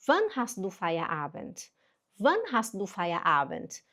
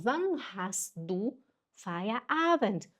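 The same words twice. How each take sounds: First: "Wann hast du Feierabend" joined up, measured pace; connected pronunciation demo. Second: "wann hast du Feierabend" slowly, word by word; spaced-out model German; slow pronunciation demo. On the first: Teacher repeats the question for learners, connected model phrase. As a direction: say the German as one careful phrase. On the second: Teacher models the question for learners, slow and segmented. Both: Shown as a demonstration. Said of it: "Atenção na pronúncia".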